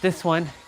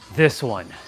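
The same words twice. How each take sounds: First: The voice is pitched higher and lighter. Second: The voice is pitched deep and low. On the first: The speaker calls it wrong. "Not this one" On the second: The speaker calls it right. "A deeper voice"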